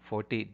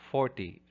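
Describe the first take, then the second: First: The stress is on the last syllable. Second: The stress is on the first syllable. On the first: The speaker calls it wrong. "many are putting the stress on the ty endings" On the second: The speaker calls it right. "So it's on the first syllable"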